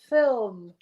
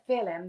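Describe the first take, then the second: First: No extra vowel is heard between L and M. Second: An extra vowel is heard between L and M. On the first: The speaker calls it right. "it's film" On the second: The speaker calls it wrong. "it's not a film, there's no extra I in there"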